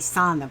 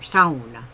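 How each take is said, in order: First: The first syllable has no 'ow' sound. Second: The first syllable has an 'ow' sound. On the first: The speaker calls it wrong. "they're not pronouncing it right" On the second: The speaker calls it right. "you got to get the ow in there"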